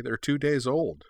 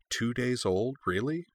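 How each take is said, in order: First: "days" stressed with a falling tune; matter-of-fact. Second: "days" rising, a quiet wondering question; musing disbelief. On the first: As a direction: state it plainly, "days" landing down. Answering with a grin, stating fact. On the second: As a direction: wonder at it softly. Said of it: "Uhtred mused". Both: A narrator's reading.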